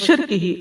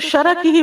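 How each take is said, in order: First: The word begins with 'shir', with no vowel after r. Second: The word begins with 'shara', with vowels after sh and r. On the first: From the devil's partnering with God. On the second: From the devil's trap or net.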